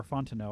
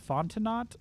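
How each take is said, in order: First: "Fontenot" ending like "no"; Fontenot with silent T. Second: "Fontenot" ending in a sounded "not". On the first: Host offers second surname guess, "Fontenot" with silent T. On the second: Host guesses a winner's surname, "Fontenot" with sounded T. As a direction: say "Fontenot" with the final T pronounced. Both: Shown as a demonstration. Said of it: "I don't know how to pronounce".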